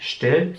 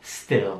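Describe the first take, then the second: First: "still" said wrongly with a German sh, as shtill; German-style sh onset. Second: "still" with a crisp English s-t, no sh; English s-t onset. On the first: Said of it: "Es ist nicht still". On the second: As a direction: start "still" on a pure S before the T. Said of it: "S T am Anfang ist halt anders". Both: Shown as a demonstration.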